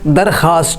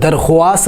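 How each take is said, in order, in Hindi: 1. 'kh' के बाद 'w' की आवाज़ नहीं है। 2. 'kh' के बाद 'w' की आवाज़ है। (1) "दरखास्त दुरुस्त है" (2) "दरख्वास्त गलत है"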